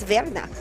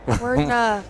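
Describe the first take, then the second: First: The name begins with a V sound. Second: The name begins with a W sound. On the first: The speaker calls it wrong. "a W is pronounced as a V. So to me, that's Verna" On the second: The speaker calls it right. "Just say Wordna. Sorry, Wordna"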